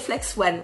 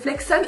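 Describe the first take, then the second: First: The word ends with a sound like 'one'. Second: The word ends with a sound like 'on'. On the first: The speaker calls it wrong. "et moi, je disais Flex One" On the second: The speaker calls it right. "Si, c'est Flexon"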